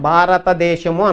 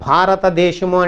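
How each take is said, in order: First: Syllables are evenly clear but the sounds are soft. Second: Every syllable is clear and sharply articulated. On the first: It is still understandable, though not sharp. "స్ఫుటత్వం కొట్టేసాం కానీ స్పష్టత బాగానే ఉంది" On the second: It is fully correct and easy to follow. "Correct అన్నాం, స్ఫుటత్వము స్పష్టత కూడా వచ్చింది"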